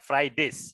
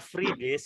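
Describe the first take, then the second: First: The first syllable sounds like 'fry'. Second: The first syllable sounds like 'free'. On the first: It means the days of the week after Thursday. The speaker calls it right. "Ini bacanya Friday" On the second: It means days off or free days. The speaker calls it wrong. "Kalau kamu baca free days itu artinya hari bebas atau hari libur"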